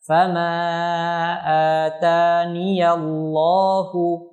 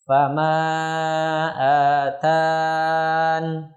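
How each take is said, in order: First: The ya is said with an a vowel, running on. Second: The ya is dropped, ending on n. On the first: The reading continues without stopping. "dibaca dengan memfathahkannya bila wasol" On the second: The reading stops after this word. "dibaca dengan membuang huruf ya dan waqaf pada huruf nun"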